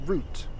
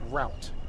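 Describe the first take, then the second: First: The vowel is long oo, rhyming with boot. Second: The vowel is ow, rhyming with out. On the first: The speaker calls it right. "Pronounced like a tree root" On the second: The speaker calls it wrong. "It's not pronounced route, as in R O W T"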